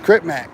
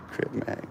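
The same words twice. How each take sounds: First: Said in the usual way. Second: Whisper. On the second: Real, not acted. Murmuring a name to himself after laughing, whispered. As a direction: whisper the name, barely voiced.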